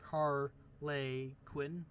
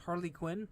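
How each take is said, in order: First: "Harley Quinn" broken up slowly, second syllable like "lay"; "Harley Quinn" stretched out as HAR-LAY QUINN; as spelled. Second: "Harley Quinn" said as the familiar name, questioning; "Harley Quinn" with a quick, light second syllable; usual name pronunciation. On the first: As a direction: sound out "Harley Quinn" piece by piece. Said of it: "but it's like". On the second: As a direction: run "Harley Quinn" together naturally. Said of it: "that's supposed to be what that is". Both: Shown as a demonstration.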